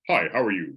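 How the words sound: The greeting sounds cold and stiff.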